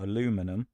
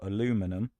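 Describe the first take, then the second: First: The word is said with four syllables. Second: The same.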